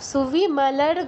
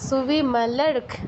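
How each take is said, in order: First: The word ends with a voiced g sound. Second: The word ends with a voiceless k sound. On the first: The speaker calls it wrong. "সুবিমলর্গ নয়" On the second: The speaker calls it right. "গয়ের পূর্ণ উচ্চারণ হবে না"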